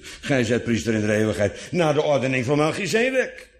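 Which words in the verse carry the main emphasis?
Melchizedek. The emphasis falls on van Melchizedek. His priesthood is of a different order than Aaron's. "Zo van, niet naar de ordening van Aaron"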